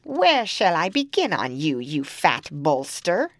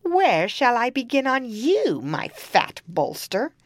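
First: Loud cackling witch; menacing hag voice. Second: Loud, higher witch screech; shrill hungry hag. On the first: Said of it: "She went up to the eldest girl and said". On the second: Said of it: "she came to the second and asked". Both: Acted.

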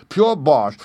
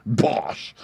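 First: Loud, higher, hit the word Pure; the prisoner mocks the spell with a loud shout. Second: Said in the usual way. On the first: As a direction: blast out Pure with scorn. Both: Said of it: "and shouted".

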